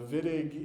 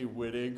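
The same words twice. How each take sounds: First: It begins with a V sound. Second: It begins with a W sound. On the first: The speaker calls it right. "pronounced with the German W, so we pronounce it like a V" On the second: The speaker calls it wrong. "Don't say Wittig, or chemists aren't going to know what you're talking about"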